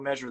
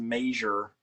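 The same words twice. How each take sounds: First: It is said with a standard pronunciation. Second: It is said with a Midwestern pronunciation. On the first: This is the speaker's own usual way. "I say you got to go measure that thing" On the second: This is a regional family way of saying it. "my mother says measure, and it's again it's like it's a Midwest thing"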